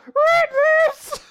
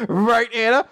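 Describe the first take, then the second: First: Loud, very high falsetto squeak; squeaky voice. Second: Loud, higher, hammed-up appeal; eager call-out. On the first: Acted. Sister backing Lance up, loud squeaky voice. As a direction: squeal it like a tiny mouse. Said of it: "squeaky voice". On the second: Lance appealing to his sister, loud and eager. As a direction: belt out the question for agreement.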